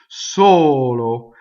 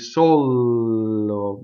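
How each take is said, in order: First: The L sound is short, a single L. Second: The L sound is held long, doubled. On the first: The speaker calls it right. "We want a single L" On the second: The speaker calls it wrong. "to make double L in this word, I would do solo. That's not desirable"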